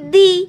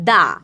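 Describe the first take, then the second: First: The word ends in a long 'ee' vowel. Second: The word ends in a short 'uh' vowel. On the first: A vowel sound follows the word. "যখন দেখবি vowel আছে তখন বলবি দি" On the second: A consonant sound follows the word. "Consonant আছে, তখন সেটাকে বলবি দা"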